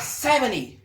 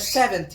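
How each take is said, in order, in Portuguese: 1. O som do T no meio é omitido. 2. O som do T no meio é pronunciado.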